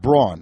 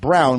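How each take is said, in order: First: The name sounds like the word brawn. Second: The name sounds like the color brown. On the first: This is how another person with the name says it. The speaker calls it wrong. "Not Braun, like Lloyd Braun" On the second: This is how the name's owner says it. The speaker calls it right. "my name is pronounced Brown like the color"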